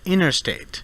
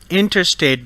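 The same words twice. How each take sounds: First: The T sound after N is dropped. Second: The T sound after N is pronounced.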